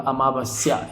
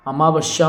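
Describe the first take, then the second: First: Said in the usual way. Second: अमावस्या with sh, "amavashya"; mispronounced अमावस्या. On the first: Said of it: "अमावस्या ये होगा". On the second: Shown as a demonstration. Teacher showing a misspelling, अमावस्या said as "amavashya". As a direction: swap the s for sh. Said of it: "आधा वो नहीं होगा".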